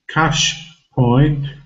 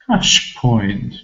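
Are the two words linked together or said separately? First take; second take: separate; linked. First: The two words are said separately. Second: The two words run together smoothly. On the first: The speaker calls it wrong. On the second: The speaker calls it right.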